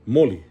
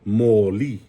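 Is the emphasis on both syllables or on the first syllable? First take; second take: first syllable; both syllables. First: The emphasis is on the first syllable only. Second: The emphasis is on both syllables equally. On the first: It means orange. "I emphasize that first one" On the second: It means light or a lamp. "now you're emphasizing both syllables"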